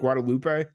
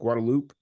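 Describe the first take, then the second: First: It is said the non-local way. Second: It is said the local San Antonio way. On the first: This is how an outsider has been saying the name. "I've been pronouncing it Guadalupe" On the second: This is how locals say the name. "that's how San Antonians say it"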